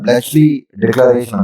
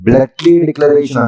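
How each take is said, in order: First: The 'ch' in Bletchley sounds like 'ch'. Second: The 'ch' in Bletchley sounds like 'k'. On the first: "సిహెచ్ చా కింద pronounce చేస్తారా" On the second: "సిహెచ్ కా కింద pronounce చేస్తారా"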